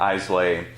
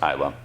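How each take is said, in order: First: The name ends with an 'ay' sound. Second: The name ends with an 'uh' sound. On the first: The speaker calls it wrong. "you might hear people call it Islay" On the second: The speaker calls it right. "but it's pronounced Isla"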